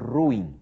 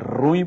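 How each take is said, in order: First: The vowels split into two syllables. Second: The vowels merge into one syllable. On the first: The speaker calls it right. "São duas sílabas, o U e o I se separam... a pronúncia correta... é essa" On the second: The speaker calls it wrong. "não diga que a coisa é ruim"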